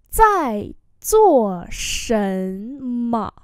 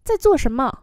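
First: Very slow, every syllable stretched; teacher's slow-motion demo; slow model reading. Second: Said in the usual way. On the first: Shown as a demonstration. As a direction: draw out "Zài zuo shenme" syllable by syllable. Same phrase drawn out for learners.

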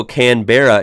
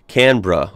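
First: Said in the usual way. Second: Canberra squeezed into two syllables, CAN-bruh; Australian pronunciation. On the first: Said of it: "Canberra is pronounced Canberra". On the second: Shown as a demonstration. American vlogger correcting himself from a comment, Canberra as CAN-bruh. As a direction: say Canberra as "CAN-bruh", middle vowel dropped. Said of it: "is pronounced Canberra".

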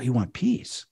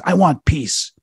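First: Softer, questioning echo; retold quiet echo. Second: High, emphatic demon's confession; retold outburst. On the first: Exorcist checking what the demon wants, quiet echo. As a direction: repeat it back softly as a question. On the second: Demon finally answering the exorcist, retold outburst. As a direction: blurt it out, pitched up.

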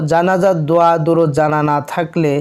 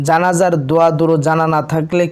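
The two takes are said the same way.

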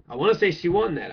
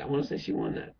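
First: Said in the usual way. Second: Soft whispered repeat. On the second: Real, not acted. Repeating the court case verdict to himself, whispered. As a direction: breathe it out as a private aside.

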